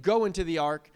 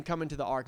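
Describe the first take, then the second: First: Firm, louder GO, as the rejected command; stress on GO. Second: Lower, easy COME, as an invitation; stress on COME. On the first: Preacher contrasting God's wording for the congregation, stress on GO. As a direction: punch GO like sending someone off. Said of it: "he's not saying". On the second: Preacher giving God's actual words to Noah, welcoming COME. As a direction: let COME settle gently, welcoming. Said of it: "He's saying". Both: Shown as a demonstration.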